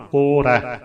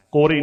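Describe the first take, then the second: First: "ਕੋਰੈ" ending in a wide open ai. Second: "ਕੋਰੇ" ending in a close e; narrow e ending. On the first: Teacher models the correct word, open ai in "ਕੋਰੈ". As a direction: open the last vowel of "ਕੋਰੈ". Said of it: "ਦੁਲਾਈਆਂ ਬੋਲਣ ਵੇਲੇ ਵੀ ਖਿਆਲ". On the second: Teacher shows what not to say, close e in "ਕੋਰੇ". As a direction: end "ਕੋਰੇ" on ay. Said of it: "ਕੋਰੇ ਨਹੀਂ ਬੋਲਣਾ". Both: Shown as a demonstration.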